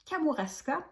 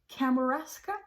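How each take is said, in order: First: The name is pronounced the French way. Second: The name is pronounced the English way.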